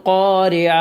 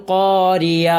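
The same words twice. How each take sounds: The two takes are said the same way.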